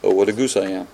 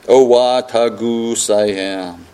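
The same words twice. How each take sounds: First: It is said very fast. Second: It is said at a normal speed.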